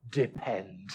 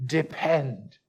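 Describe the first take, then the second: First: Hushed word. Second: Said in the usual way. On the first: Shown as a demonstration. Preacher murmuring the key word to his congregation. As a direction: drop almost to a whisper, much lower and softer.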